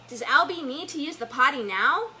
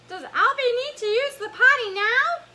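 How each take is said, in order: First: It is said in the speaker's normal voice. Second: It is said in a put-on Elmo voice.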